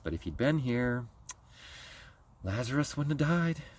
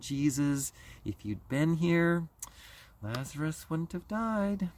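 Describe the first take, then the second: First: It is said with a veiled, indirect edge. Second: It is said in a wounded, guilt-inducing tone. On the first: The speaker blames Jesus without saying it to him. "that passive-aggressive family" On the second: The speaker tries to make Jesus feel guilty. "that guilt and shame family"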